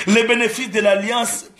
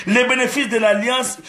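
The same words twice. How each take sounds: The two takes are said the same way.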